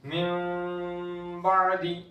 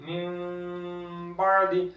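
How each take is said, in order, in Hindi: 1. b से पहले n नरम नासिक्य m बन जाता है। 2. b से पहले n नरम नासिक्य m बन जाता है।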